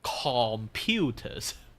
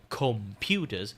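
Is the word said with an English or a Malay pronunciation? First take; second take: Malay; English. First: It is said with a Malay pronunciation. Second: It is said with an English pronunciation. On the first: "we pronounce it with a K in there" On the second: "we don't say computers"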